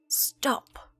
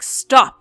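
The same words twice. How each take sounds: First: It is said quietly. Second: It is said loudly.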